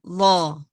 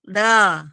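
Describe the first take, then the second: First: It is said open and full, lips unspread. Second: It is said thin, with lips spread smiling. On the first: The speaker calls it right. "Terbuka, tetapi nggak senyum" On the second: The speaker calls it wrong. "Bukan the. Nah, bukan begitu ya"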